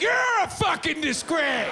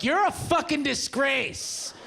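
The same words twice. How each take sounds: First: Shouting the insult back at a stranger; shouted back. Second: Scornful insult. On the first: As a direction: yell it right back way up high. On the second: Stranger insulting fake fireman. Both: Retold or imitated.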